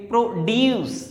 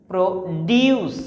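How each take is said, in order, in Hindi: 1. ज़ोर दूसरे शब्दांश पर है। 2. ज़ोर दूसरे शब्दांश पर है।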